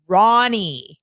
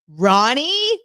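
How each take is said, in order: First: Lightly voiced chummy dad, "Ronnie" falling; dad naming dog. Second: "Ronnie" rising high and louder in disbelief; incredulous. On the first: Dad telling her the dog's name, cheerful. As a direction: hand over the name "Ronnie" like good news. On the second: Retold or imitated. Hearing the hated dog's name from dad, incredulous. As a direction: throw back "Ronnie" as an appalled question.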